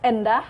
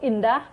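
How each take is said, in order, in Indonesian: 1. Vokal pertama dilafalkan sebagai 'e'. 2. Vokal pertama dilafalkan sebagai 'i'. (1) "Kata yang salah adalah endah" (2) "yang benar itu indah"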